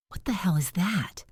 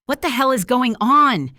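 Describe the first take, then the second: First: "What the hell is that?" as a breathless unvoiced whisper; a startled thought, whispered under the breath; whispered inner thought. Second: "What the hell is going on?" snapped high and loud; a loud, furious demand at the woman; angry snap. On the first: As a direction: hush it like a thought in his head. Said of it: "Devin thought". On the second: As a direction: bite the question out at her. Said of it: "he snapped at her". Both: A narrator's reading.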